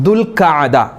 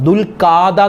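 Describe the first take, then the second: First: A short 'a' vowel follows the 'kh'. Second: A long 'aa' vowel follows the 'kh'. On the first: The speaker calls it right. "ദുൽഖഅദ എന്നാണ് അതിൻ്റെ ഉച്ചാരണം" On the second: The speaker calls it wrong. "പല ആളുകളും ദുൽഖാദ മാസം, ദുൽഖാദ എന്ന് പറയും"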